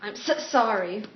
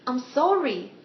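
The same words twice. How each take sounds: First: Lightly acted apology that sticks on "so"; reluctant apology. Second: Repeated apology. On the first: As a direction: catch on the s of "so" before "sorry". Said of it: "she doesn't apologize to people that easily". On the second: Acted. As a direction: get "sorry" out in one go. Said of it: "One more time".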